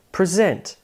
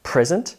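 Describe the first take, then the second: First: PreSENT, the verb form; stress on second syllable. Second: PRESent, the noun form; stress on first syllable. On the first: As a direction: present with SENT strong, falling. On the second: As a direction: present with PRES strong, ending on a rise. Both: Shown as a demonstration. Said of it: "Can you hear the shift in syllable stress?".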